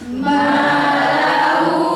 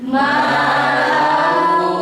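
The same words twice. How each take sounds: Both takes have the same delivery.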